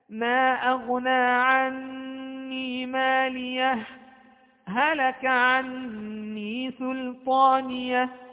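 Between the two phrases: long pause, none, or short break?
short break. A brief silent break without a breath between phrases. The verses are separated briefly without ending the recitation. "السكت"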